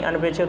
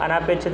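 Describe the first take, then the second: First: अनपेक्षित with a short a after the n; no long aa before pe in अनपेक्षित; correct short vowel. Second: अनापेक्षित with a long aa after the n; wrong form with long aa. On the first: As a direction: say अनपेक्षित as an-pek-shit. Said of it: "अनपेक्षित होता है". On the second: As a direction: say अनापेक्षित as a-naa-pek-shit. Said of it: "अनापेक्षित नहीं". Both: Shown as a demonstration.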